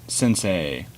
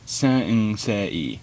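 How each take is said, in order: First: The syllables differ in length and loudness. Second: Every syllable, including the N, has equal length. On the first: The speaker calls it wrong. "sensei is not pronounced sensei" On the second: The speaker calls it right. "every single syllable exactly the same volume and length of time, including the final N"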